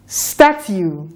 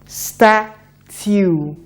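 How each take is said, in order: First: "Statue" said quicker as one word; brisk, joined-up "Statue"; faster blending. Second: "Statue" stretched slowly, sound by sound; drawn-out teaching "Statue"; slow blending. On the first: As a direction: snap the sounds of "Statue" together. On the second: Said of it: "A bit faster now". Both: Shown as a demonstration.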